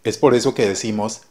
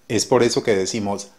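The two takes are said the same way.

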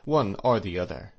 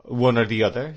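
First: "one or the other" as an easy statement; settled answer, "one or the other" at usual pitch; plain answer. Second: "one or the other" louder, rising at the end; louder echo, lifting "other" questioningly; probing question. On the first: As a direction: say "one or the other" evenly, without a question. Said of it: "the doctor answered". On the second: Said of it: "asked Mister Wickfield". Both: A narrator's reading.

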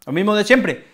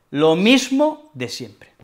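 First: Said in the usual way. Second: Slow, resigned repeat; slow, resigned "lo mismo de siempre"; slow weary repeat. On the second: Shown as a demonstration. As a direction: drag it out like an old routine. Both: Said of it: "Expreso que esto se repite".

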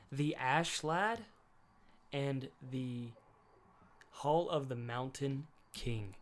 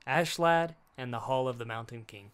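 First: Slowly, each word of "The Ash Lad and the Hall of the Mountain King" drawn out; slow title announcement. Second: Said in the usual way. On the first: Shown as a demonstration. Telling friends the film's title, drawn out slowly. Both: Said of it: "What was it called?".

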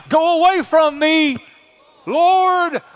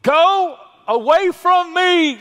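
First: Loud, high, earnest retake, said like he means it; mean every word, much higher and louder; like you mean it. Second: A loud, high, slow cry of Peter pushing the Lord away; Peter's cry. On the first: Shown as a demonstration. Preacher urging the church to say it like they mean it, earnest loud cry. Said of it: "Come on, like you mean it now". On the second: Acted. Preacher acting Peter at Jesus' knees, loud high drawn-out cry. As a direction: cry it out big and drawn out, much higher and louder. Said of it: "and he said, quote".

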